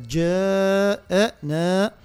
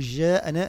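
First: The j sound starts with a full, firm closure. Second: The j sound is soft, without a full closure. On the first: The speaker calls it right. "لا جاءنا" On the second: The speaker calls it wrong. "لابد من غلق المخرج قبل نطقها باش ما نقول جاءنا"

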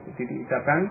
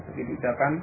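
The two takes are said the same way.

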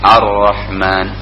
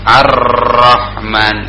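First: The r is made with one light tap. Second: The r is trilled heavily with many taps. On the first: The speaker calls it right. "Ada gerakan" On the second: The speaker calls it wrong. "tidak ngegeber seperti huruf yang punya kita ... enggak begitu"

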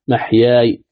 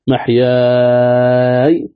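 First: The long vowel is held only briefly. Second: The long vowel is held a long time. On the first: "قصر" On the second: "طول"

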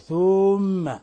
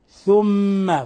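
First: The first vowel is stretched long. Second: The first vowel is kept short. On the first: The speaker calls it wrong. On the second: The speaker calls it right.

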